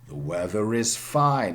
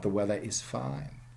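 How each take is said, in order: First: An r sound links weather and is. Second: No r sound links weather and is. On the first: The speaker calls it right. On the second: The speaker calls it wrong.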